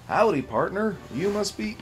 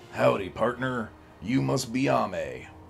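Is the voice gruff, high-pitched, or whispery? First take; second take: high-pitched; gruff. First: It is said in a higher-pitched voice. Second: It is said in a gruff cowboy voice.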